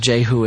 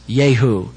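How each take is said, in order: First: The name begins with a J sound. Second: The name begins with a Y sound. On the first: "this one is Jehu for all intents and purposes" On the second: "the real pronunciation of Jehu is Yehu"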